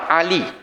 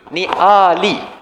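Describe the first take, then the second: First: It begins with a tight throat sound. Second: It begins with a plain open vowel. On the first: It is a person's name. "Itu nama orang" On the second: It means family. "Alif, bukan Ain"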